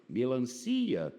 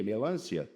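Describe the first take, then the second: First: "Melancia" stressed on CI, the next-to-last syllable; correct word stress. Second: "Melância" stressed on LÂN, with CIA unstressed; mock wrong stress. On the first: Teacher reading the exam word "Melancia", stressed on CI. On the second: Teacher ridiculing the exam's error, "Melância" stressed on LÂN. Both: Shown as a demonstration. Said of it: "Vai ser o quê?".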